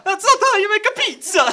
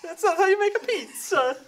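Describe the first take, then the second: First: High, loud hammed-up Italian accent; mock Italian chef. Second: Laughing mock Italian. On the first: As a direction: scold like a cartoon pizza chef. Pizza line in Italian voice. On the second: Repeats pizza line laughing.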